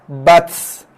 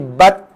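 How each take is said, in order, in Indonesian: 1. Huruf t dilepaskan dengan hembusan nafas yang kuat. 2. Huruf t berhenti mendadak tanpa hembusan nafas. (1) "Itu kita hembus. Jangan hembus" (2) "Tak ada keluar nafas langsung, terus stop. Salah"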